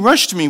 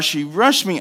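First: "rushed" hit loud and high; stress on rushed. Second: Said in the usual way. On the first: Shown as a demonstration. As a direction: punch the word "rushed" for emphasis. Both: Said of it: "I mean, rushed me".

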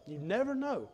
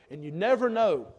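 First: Much softer, trailing "you never know"; softer repeat. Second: "never" leaned on, kept up; hopeful first take, hit "never"; stress on never. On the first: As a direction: let "you never know" fade into a hush. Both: Shown as a demonstration.

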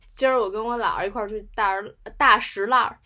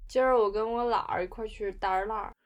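First: Beijing accent, less sticky, 大石栏儿 said clearly as "da shi lar"; lighter Beijing accent. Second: Beijing accent with every 儿 rolled, 大栅栏儿 said as "da shi lar"; sticky, swallowed Beijing syllables; full Beijing erhua. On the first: A less sticky Beijing version for the guests, still with a Beijing accent. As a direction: keep the erhua but open the syllables. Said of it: "如果不那么黏的话". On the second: Last take for the host, a thick sticky Beijing accent. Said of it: "最后一次". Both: Shown as a demonstration.

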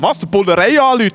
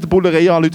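First: Put-on slightly raised, incredulous teen retort; retold disbelief, lightly acted; mock alarmed echo. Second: Said in the usual way. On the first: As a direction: throw it back as a startled question.

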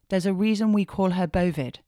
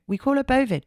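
First: Said in the usual way. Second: Bovid hit much higher and louder; stressed punchline. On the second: Shown as a demonstration. Host repeating daughter's nickname to listeners, loud and emphatic. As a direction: punch out "call her Bovid" high and loud.

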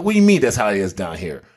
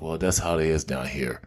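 First: Retold disbelieving question at normal volume; incredulous retort. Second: Low, soft imitation of a downcast friend; resigned. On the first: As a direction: throw the words back in disbelief. His incredulous retort to friend. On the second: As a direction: give in quietly, voice dropped. Friend's downcast reply, head down.

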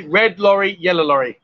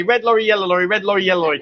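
First: "red lorry, yellow lorry" said word by word; unhurried tongue-twister demo; measured demonstration. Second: Quick run-through of the tongue twister; rapid tongue-twister demo, twice through; said quickly. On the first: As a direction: model each word clearly for a learner. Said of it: "say it louder so I can hear you". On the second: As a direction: rattle it off without pausing. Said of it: "Now you gotta say it quickly". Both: Shown as a demonstration.

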